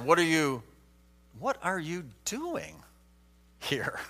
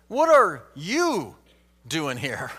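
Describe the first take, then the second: First: The word "doing" carries the strongest stress. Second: The word "you" carries the strongest stress. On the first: The question is about what Elijah is actually doing. "you could go to the next word and say" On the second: Elijah, of all people, should not be here. "consider this question by emphasizing different words. Let's start with"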